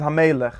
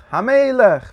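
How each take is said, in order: First: Said in the usual way. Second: HAMELECH rung out high and loud; emphatic repeat. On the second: Real, not acted. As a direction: proclaim Hamelech, much higher and louder. Repeats the key word for emphasis. (מיט שטארקן טראפ אויף Hamelech, הויך ארויסגערופן)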